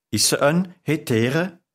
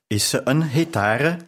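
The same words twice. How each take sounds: First: "hetere" said with a short e, as in "heter"; "hetere", e in the middle, not a; mispronounced hetare. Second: "hetare" with a clear open a in the middle; "hetare", lean on the a sound; corrected hetare. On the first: Narrator fumbles the word for a courtesan, saying "hetere". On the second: Narrator corrects herself, the shopkeeper hears "hetare". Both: Shown as a demonstration.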